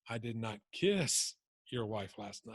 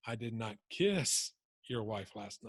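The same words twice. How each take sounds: First: The stress falls on the word "kiss". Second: The stress falls on the word "kiss".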